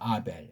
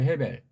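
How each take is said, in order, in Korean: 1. 이 이름은 바로 모음으로 시작해요. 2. 이 이름은 h 소리로 시작해요. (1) "다 날려버리고 아벨 하잖아요" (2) "헤벨 그래야 돼요"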